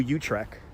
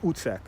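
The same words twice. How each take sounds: First: It is said with an American English pronunciation. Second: It is said with a Dutch pronunciation. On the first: "we call it New Utrecht" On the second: "pronounced the Dutch way is Utrecht"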